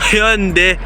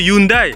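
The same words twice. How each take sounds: First: The word starts with a clear H sound. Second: The word starts without an H sound. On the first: The speaker calls it right. "Faut que tu prononces le H" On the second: The speaker calls it wrong. "si tu dis Hyundai, le coréen il va pas capter"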